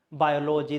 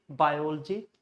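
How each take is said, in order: First: Biology as bio-LO-jee; biology split bio plus logy; wrong BIOLOGY. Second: Biology as bai-OL-jee; biology with no vowel after the L; stressed OL in biology. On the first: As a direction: sound a full "logy" in biology. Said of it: "there is no biology". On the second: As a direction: squeeze biology's ending to "OL-jee". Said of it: "in this way". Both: Shown as a demonstration.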